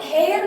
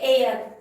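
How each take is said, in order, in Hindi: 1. यह शब्द h की ध्वनि से शुरू होता है। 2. यह शब्द स्वर से शुरू होता है, इसमें h नहीं है। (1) "इसको हेयर नहीं पढ़ते" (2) "एच साइलेंट है"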